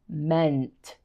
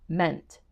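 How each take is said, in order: First: "meant" said slowly and carefully, every sound clear; over-enunciate "meant" for a struggling learner; enunciated meant. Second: Said in the usual way. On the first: Shown as a demonstration. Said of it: "really emphasize". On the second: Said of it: "And say the word".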